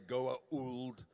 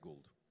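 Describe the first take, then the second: First: The name does not sound like 'gold'. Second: The name sounds like the word 'gold'. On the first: The speaker calls it wrong. "it sounded stupid to me" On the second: The speaker calls it right. "I say gold, like gold, the golden gold"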